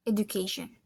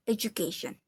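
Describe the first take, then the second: First: Education in a lightly British accent. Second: Education in a lightly American accent; American-style education with a blended "ju". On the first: Student compares accents, British-style education. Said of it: "in British accent, it is". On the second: Student compares accents, American-style education. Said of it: "In American accent, it is". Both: Shown as a demonstration.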